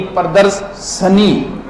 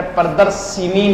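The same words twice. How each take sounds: First: Slow, drawn-out "sha-nee" in प्रदर्शनी; प्रदर्शनी broken up, no i after sh; correct short a. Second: "shi" in प्रदर्शिनी; प्रदर्शिनी with an i after sh; wrong i vowel. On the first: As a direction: split प्रदर्शनी slowly as pra-dars... sha-nee. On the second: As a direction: say प्रदर्शिनी as pra-dar-shi-nee. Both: Shown as a demonstration. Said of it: "अरे प्रदर्शिनी नहीं".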